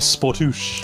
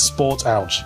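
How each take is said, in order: First: The name is said with French pronunciation. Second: The name is read as English words. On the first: "he's French, so it might be Sportouche" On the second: "I like to think it's Sport Ouch"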